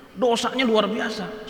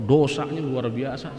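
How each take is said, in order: First: Dosanya said high and slow; emphasis on dosanya. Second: Said in the usual way. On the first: Shown as a demonstration. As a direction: lean hard on Dosanya, drawn out.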